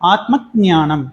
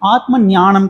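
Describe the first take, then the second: First: The word starts with a g-like sound before n. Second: The word starts with a plain n sound. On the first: The speaker calls it right. "அந்த இக்கு sound வர்றது தெரியுதுங்களா? ... ஆத்ம ஞானம் அப்படின்னு சொல்லணும்" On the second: The speaker calls it wrong. "ஆத்ம ஞானம் கிடையாது"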